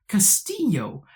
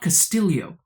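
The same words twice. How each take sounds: First: The name is said with Spanish pronunciation. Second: The name is said without Spanish pronunciation. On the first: The name keeps its original colonial form. "because it's Spanish, and so she should say Castillo" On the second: The family chose to change it as an act of remembering. "I'm deliberately saying Castillo"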